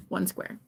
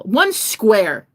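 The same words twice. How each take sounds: First: Small plea. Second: ONE SQUARE, punched out louder; emphatic plea. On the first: Pleading for one square of toilet paper, softly. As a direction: drop it to a small, quiet request. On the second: Pleading for toilet paper, "One square" loud and emphatic. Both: Acted.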